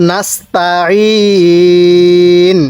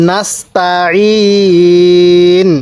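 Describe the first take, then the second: No difference in how they are said.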